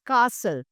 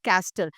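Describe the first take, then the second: First: The T sound is silent. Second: The T sound is pronounced. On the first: The speaker calls it right. "Because the T is silent" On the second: The speaker calls it wrong. "It is not castle"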